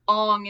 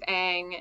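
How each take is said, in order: First: The vowel is pronounced in an Asian-dialect way. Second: The vowel is pronounced in a usual English way.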